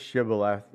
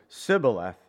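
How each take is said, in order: First: The word begins with an 'sh' sound. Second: The word begins with an 's' sound. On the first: This is the form the Gileadites demanded. The speaker calls it right. "the closest the Ephraimites could get to Shibboleth" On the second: This form betrays the speaker as an Ephraimite. The speaker calls it wrong. "their pronunciation gave them away"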